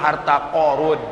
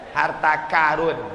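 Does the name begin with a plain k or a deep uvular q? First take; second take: uvular q; plain k. First: The name begins with a deep uvular q sound. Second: The name begins with a plain k sound. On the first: The speaker calls it right. "Yang betul harta Qarun" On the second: The speaker calls it wrong. "karena orang kita payah menyebut qa, karun kata dia"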